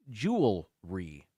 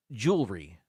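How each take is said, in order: First: JEWELRY slowly as JOO-ul-ree; three separate syllables in JEWELRY; spelling pronunciation. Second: JEWELRY run together as JOOL-ree; two-syllable pronunciation. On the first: Host giving it as spelled, JEWELRY said slowly JOO-ul-ree. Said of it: "as it's spelled". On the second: Host showing what people say, JEWELRY said JOOL-ree. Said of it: "as if it's two syllables". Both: Shown as a demonstration.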